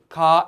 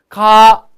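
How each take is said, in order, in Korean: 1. 이 음절은 낮은 음으로 발음해요. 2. 이 음절은 높은 음으로 발음해요. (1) "그냥 아무것도 없으면은 낮은 소리" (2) "얘는요 그냥 높은 소리야"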